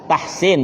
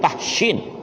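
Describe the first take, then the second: First: The middle consonant is a plain s sound. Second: The middle consonant is an sh sound. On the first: The speaker calls it right. "Tahsin bukan tahsyin" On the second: The speaker calls it wrong.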